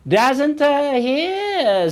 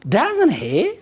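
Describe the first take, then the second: First: A hesitant filler and pause split the words. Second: The two words flow together without a break. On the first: It sounds hesitant and unnatural. The speaker calls it wrong. "There are some people who speak English like this. Never do that" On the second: It sounds like a natural question. The speaker calls it right. "I just want you to say"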